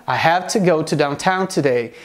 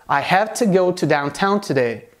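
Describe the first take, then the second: The two takes are said the same way.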